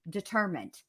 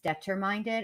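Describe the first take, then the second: First: The word ends with a plain 'mined' sound. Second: The word ends with an extra 'ded' sound. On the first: The speaker calls it right. "on the third time it clicked. Oh" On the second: The speaker calls it wrong. "I didn't know how to pronounce the word determined, so I read that whole book as determinded"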